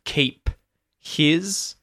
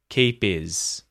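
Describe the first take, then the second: First: The h at the start of his is pronounced. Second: The h is dropped, so his sounds like is. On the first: "instead of keep his" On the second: "H deletion again when I say keep is"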